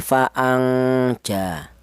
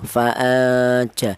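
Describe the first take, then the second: First: The n has a strong, long nasal hum. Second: The n is half hidden, half nasal hum. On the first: The speaker calls it wrong. "Jangan terlalu dengung seperti ini" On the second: The speaker calls it right. "pertengahan antara samar dan dengung"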